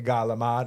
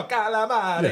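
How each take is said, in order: First: Starts with a g sound and drops the final vowel. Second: Starts with a k sound and keeps every final vowel. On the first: This is how locals back home say it. The speaker calls it wrong. "so I say galamad" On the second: This is how native Italians say it. The speaker calls it right. "no, no, calamari"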